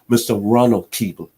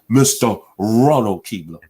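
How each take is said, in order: First: The name is said plainly, without extra force. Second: The name is said with strong, forceful emphasis.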